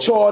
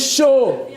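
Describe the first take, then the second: First: The word sounds like chord, with an r. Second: The word sounds like show, with no final consonant. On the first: Someone else mispronounced it. The speaker calls it wrong. "He called it chord or chad or chowd or something" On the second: This is the proper French pronunciation. The speaker calls it right. "No, the word is show"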